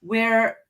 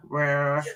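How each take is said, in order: First: Said in the usual way. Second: "We're." said lower in a strange put-on accent; weird accent. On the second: Shown as a demonstration. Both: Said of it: "we said it with a weird accent".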